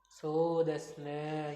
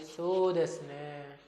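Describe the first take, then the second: First: It sounds like the speaker is thinking. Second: It sounds sorry for the listener.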